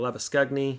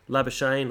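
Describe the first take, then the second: First: The name is pronounced the Afrikaans way. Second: The name is pronounced the English way.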